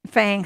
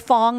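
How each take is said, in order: First: The vowel is said as spelled, like 'fang'. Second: The vowel is said like 'fong'. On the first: This follows the written spelling. "Fang, F A N G" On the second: This is how the local people say it. "Fong, I think is how they um, pronounce it"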